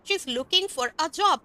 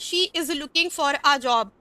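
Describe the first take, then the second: First: She is is contracted to she's. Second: She is is said as two full words.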